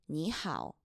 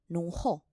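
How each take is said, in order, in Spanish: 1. Se pronuncia al estilo mandarín. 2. Se pronuncia al estilo shanghainés. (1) "lo estoy pronunciando según el chino mandarín" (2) "Según el chino de Shanghái, que es mi dialecto"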